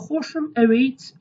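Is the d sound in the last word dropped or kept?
dropped. The d sound in the last word is dropped. This is the local dialect form. "it's in Slemani accent"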